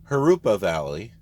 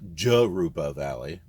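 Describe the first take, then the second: First: The first word begins with an H sound. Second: The first word begins with a J sound. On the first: The speaker calls it right. "I'm pretty sure it's Harupa Valley" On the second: The speaker calls it wrong. "not Jarupa Valley"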